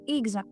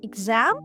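First: The stress is on the first syllable. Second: The stress is on the second syllable. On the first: The speaker calls it wrong. "ми ставимо наголос на перший склад" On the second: The speaker calls it right. "поставити наголос на другий склад"

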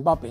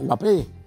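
First: The stress is on the first syllable. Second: The stress is on the last syllable. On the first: The speaker calls it wrong. "No sé por qué le dice Mbappé" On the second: The speaker calls it right. "con acento en la E"

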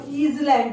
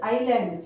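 First: The s sound is pronounced in the word. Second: The s sound is silent in the word. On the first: The speaker calls it wrong. "It is not island" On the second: The speaker calls it right. "it is island, children. ... is silent"

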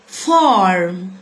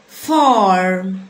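No difference in how they are said.

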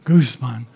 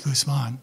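First: The stress is on the first syllable. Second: The stress is on the second syllable. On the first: The speaker calls it wrong. "not Guzman" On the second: The speaker calls it right. "the accent is on the man"

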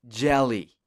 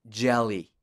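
Both takes have the same delivery.

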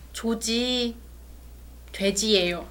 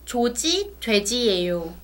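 First: There is a short pause after the first word. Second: It is read straight through without a pause.

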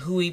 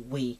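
First: The syllable begins with an h sound. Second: The syllable begins with a w sound. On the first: This is how others in videos said it. The speaker calls it wrong. "They were saying Hui" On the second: This is the actual way to say it. The speaker calls it right. "but it's actually We"

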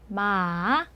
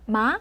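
First: The pitch rises softly, then dips slightly. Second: The pitch rises smoothly and quickly. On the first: "부드럽게 생겼죠? 물음표 모양으로" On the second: "올라가는 성조인데요. 부드럽게 역시. 하지만 속도가 조금 빠르죠?"

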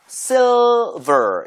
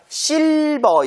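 First: The L is clear, with the tongue tip forward. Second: The L is weak, without the tongue tip. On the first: The speaker calls it right. "혀가 silver 이런 식으로 앞쪽에 닿아야 돼요" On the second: The speaker calls it wrong. "실버 이게 아니라"

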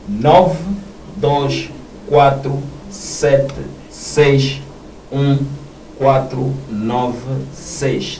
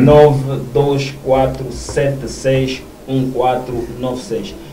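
First: It is said more slowly and deliberately. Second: It is said at a normal, quicker pace.

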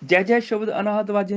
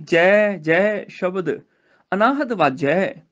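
First: The two 'jai' words run together without pause. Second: A short pause separates the two 'jai' words. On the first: The speaker calls it wrong. "ਨਹੀਂ" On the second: The speaker calls it right. "ਜੈ ਜੈ ਇਸ ਤਰ੍ਹਾਂ ਬੋਲਣਾ, ਥੋੜਾ ਜਿਹਾ ਪਾਸ ਦੇ ਕੇ"

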